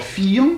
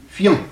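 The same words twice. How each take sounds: First: "fiant" drawn into two syllables, fi-ant, with a full i; old two-syllable pronunciation. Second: "fiant" in one short syllable, the i turned to a y glide; modern one-syllable pronunciation. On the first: Teacher showing students the older French, "fiant" split as fi-ant. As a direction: sound the i of "fiant" as its own vowel. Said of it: "l'i devant voyelle est devenu iode". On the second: Teacher showing students the modern result, "fiant" as one syllable with a glide. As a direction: say "fiant" as fyant, no separate i. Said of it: "est devenu iode dans la prononciation".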